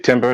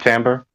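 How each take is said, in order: First: The word is said as it is spelled. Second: The word is not said as it is spelled. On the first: This is how the other person said it. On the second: This is the form the speaker expected.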